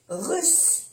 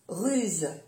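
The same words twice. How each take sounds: First: "Russe" pitched high, ending in an unvoiced s; double S. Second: "ruse" falling, ending in a voiced z; soft Z. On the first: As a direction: lift "Russe" and end on a hiss. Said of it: "pronunciar bien las dos S". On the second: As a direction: say "ruse" with a final buzz. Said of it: "se pronuncia como una Z suave". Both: Shown as a demonstration.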